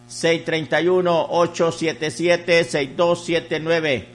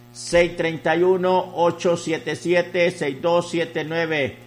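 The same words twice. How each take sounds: The two takes are said the same way.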